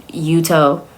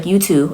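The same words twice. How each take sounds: First: "Yuto" said as YOO-toh; correct pronunciation. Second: "Yuto" said as YOO-too; mispronounced name. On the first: Correcting her on the husband's name, Yuto as YOO-toh. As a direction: end "Yuto" on a clear long o. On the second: Imitating her botched husband's name, Yuto as YOO-too. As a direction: end "Yuto" on "too" instead of "toh". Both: Retold or imitated. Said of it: "doesn't know how to say his name".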